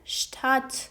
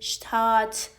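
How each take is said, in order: First: The vowel is only moderately long. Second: The vowel is stretched out very long. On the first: The speaker calls it right. "باید بگید der Stadt" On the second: The speaker calls it wrong. "نه اینقدر بگید شتات"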